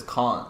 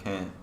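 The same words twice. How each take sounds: First: "can't" with a broad ah vowel, kahn't; Australian vowel. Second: Said in the usual way. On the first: Shown as a demonstration. To friends, showing how he now says it: "can't" as kahn't. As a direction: say "can't" like an Aussie, open ah. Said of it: "you can hear he says". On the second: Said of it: "instead of".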